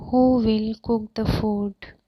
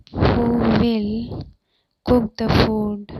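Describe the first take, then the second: First: Said in the usual way. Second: Drawn-out "Who will", pause, then the rest; slow it right down for learners; deliberate chunked teaching delivery; slow, emphatic repeat. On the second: Shown as a demonstration. Teacher repeats translation slowly in chunks.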